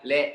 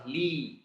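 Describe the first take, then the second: First: The vowel is an open eh sound. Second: The vowel is a clear ee sound. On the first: The speaker calls it wrong. "Jangan lillah" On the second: The speaker calls it right. "Ini lam yang pertama kasrah"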